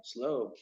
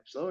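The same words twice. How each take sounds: First: SLOW as a low, falling answer; retold quiet confirmation, SLOW going down; confirming. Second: SLOW as a question, rising at the end; retold puzzled SLOW, pitch going up. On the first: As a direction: drop SLOW softly to a firm end. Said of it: "He's like". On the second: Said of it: "And I'm like".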